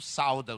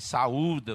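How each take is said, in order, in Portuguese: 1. O 'au' é falado junto, como uma sílaba só. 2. O 'a' e o 'u' são falados como duas sílabas. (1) "Você não sauda os irmãos, não" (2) "Você saúda os irmãos"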